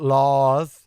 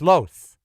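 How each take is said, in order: First: The vowel sounds like the one in 'laws'. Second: The vowel sounds like the one in 'toast'. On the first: The speaker calls it wrong. "It is not laws" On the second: The speaker calls it right. "like toast"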